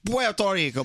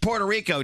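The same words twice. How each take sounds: First: It is said with a Spanish-style pronunciation. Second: It is said with an English-style pronunciation. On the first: It is the way heard growing up. "when I try to say Puerto Rico" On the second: It is the way others expect it. "People look at me like it's Puerto Rico, dude"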